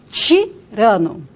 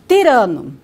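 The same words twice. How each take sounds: First: It begins with a ch sound. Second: It begins with a plain t sound. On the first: Said the way people in northern Paraná say it. "Aqui, no norte do Paraná, nós dizemos o quê?" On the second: Said the way people in another region of Brazil say it. "determinada região do Brasil, né, é, as pessoas dizem tirano"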